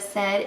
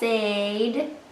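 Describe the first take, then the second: First: The vowel is a short E sound. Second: The vowel is a long A sound. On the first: This is how the word is really said. "instead of said" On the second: This is how the letters would sound by the rule. "would say said"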